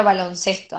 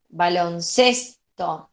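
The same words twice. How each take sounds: First: Said in the usual way. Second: "Baloncesto" drawn out slowly, leaning on "ces"; slow teacher's demo of "Baloncesto", stressed on "ces". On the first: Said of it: "¿dónde iría tildada ahí?". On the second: Shown as a demonstration. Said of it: "en ces".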